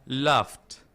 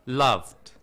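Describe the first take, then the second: No difference in how they are said.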